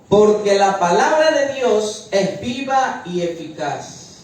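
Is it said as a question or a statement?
statement. It is said as a statement.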